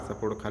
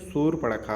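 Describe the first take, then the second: First: The name is clipped and slurred, like 'sapurkha'. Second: The name is said in full, like 'shurpanakha'. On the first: This is how people commonly say it. The speaker calls it wrong. "लोग बोलते हैं ना" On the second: This is the correct form. The speaker calls it right. "लेकिन शूर्पणखा होता है"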